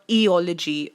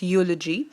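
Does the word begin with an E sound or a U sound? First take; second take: E sound; U sound. First: The word begins with a pronounced E sound. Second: The E is silent; it begins with U. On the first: The speaker calls it wrong. "eulogy is not eology" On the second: The speaker calls it right. "E is uh, silent here, it's eulogy"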